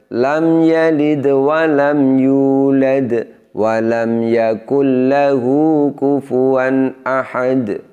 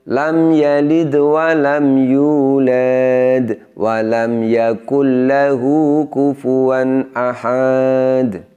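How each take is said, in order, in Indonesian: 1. Vokal terakhir sebelum jeda tetap dibaca pendek. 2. Vokal terakhir sebelum jeda dibaca panjang. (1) "ini contoh yang benar. ... Jadi kita baca pendek" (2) "Ini contoh yang uh, tidak semestinya"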